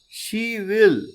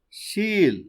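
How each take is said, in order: First: Both words are said in full. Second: The words are merged into one short syllable. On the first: "Instead of saying she will" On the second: "we can say she'll"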